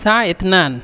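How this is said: It uses a hard t middle consonant. This is how Egyptians say it. "কিন্তু এরা বলে সা ইতনান"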